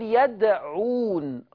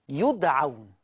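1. تبدأ الكلمة بصوت 'ya'. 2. تبدأ الكلمة بصوت 'yu'.

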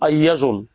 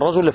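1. يُستبدل صوت r بصوت y. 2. تُنطق الكلمة بصوت r واضح. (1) "ينطق الراء لاما أو ياء" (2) "يقول مثلا الرجل"

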